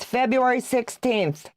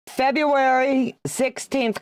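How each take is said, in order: First: Said in the usual way. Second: "February sixteenth" drawn out slowly, higher, with the stress on "February"; slow emphatic date. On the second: Shown as a demonstration.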